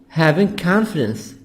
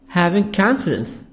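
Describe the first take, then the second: The two takes are said the same way.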